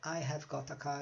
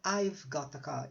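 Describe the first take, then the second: First: The word have is said in full. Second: Have is shortened to a single v sound. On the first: "Fica um pouco difícil de pronunciar" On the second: "nós vamos pronunciar só o V"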